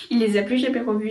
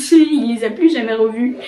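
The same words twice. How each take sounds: First: Said in the usual way. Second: Laughing. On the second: Real, not acted. Telling viewers the lost-stuff punchline, laughing. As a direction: chuckle the words out as you repeat them.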